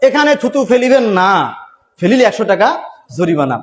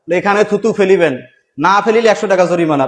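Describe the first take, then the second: First: The pause comes after the word 'না'. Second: The pause comes before the word 'না'.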